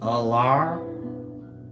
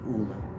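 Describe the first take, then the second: First: The final R is sounded out strongly. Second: The final R is soft and French-sounding. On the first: The speaker calls it right. "the R being pronounced out R" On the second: The speaker calls it wrong. "French sounding, you know, exotic"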